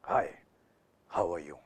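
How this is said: The voice is pitched low. "ये लो frequency है"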